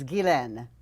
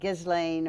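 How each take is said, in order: First: The name gets a French pronunciation. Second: The name gets an English-style reading. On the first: "The French pronunciation is Ghislaine" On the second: "if you look at it, it looks like Ghislaine or whatever"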